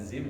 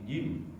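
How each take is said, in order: First: The word begins with a z sound. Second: The word begins with a j sound. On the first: The speaker calls it wrong. "Jangan zim ya" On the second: The speaker calls it right. "tapi jim"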